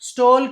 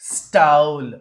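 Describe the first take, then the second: First: The vowel is a short, pure 'o'. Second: The vowel glides, like 'oh-oo'. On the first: The speaker calls it wrong. "స్టోల్ కాదు" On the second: The speaker calls it right. "స్టౌల్. స్టోల్ కాదు"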